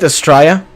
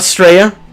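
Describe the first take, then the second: First: The name begins with a vowel sound. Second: The name begins with an 's' sound. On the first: The speaker calls it right. "It's pronounced Saint Estrella" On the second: The speaker calls it wrong. "not Straya"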